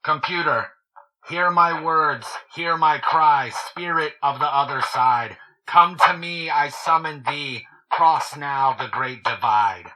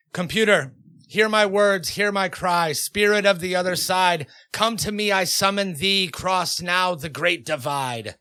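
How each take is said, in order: First: A summoning spell called out through a megaphone, slowing at the end; megaphone incantation. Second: Higher, insistent ritual chant, slowing at the end; insistent incantation. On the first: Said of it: "you want the megaphone?". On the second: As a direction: third time's a charm, so push the spell harder. Third try at the spell. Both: Acted.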